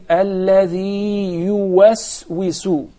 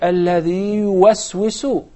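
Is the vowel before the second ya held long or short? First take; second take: long; short. First: The first ya vowel is held long, separately. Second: The two ya sounds merge into one, short. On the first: The speaker calls it right. "we have to prolong the first" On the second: The speaker calls it wrong. "I heard it as one ya"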